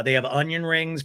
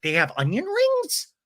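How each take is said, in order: First: Said in the usual way. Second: High, amazed question imitating a diner; mock-thrilled disbelief, pitched way up; excited. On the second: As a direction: exclaim it high, as retold delighted surprise. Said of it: "People are excited about that".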